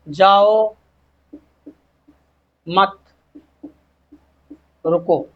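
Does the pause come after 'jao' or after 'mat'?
after mat. The pause comes after 'mat'.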